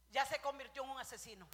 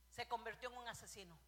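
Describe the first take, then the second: First: Louder declaration on asesino; loud verdict. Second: Said in the usual way. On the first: Real, not acted. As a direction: declare it with force. Repeats verdict, second time shouted.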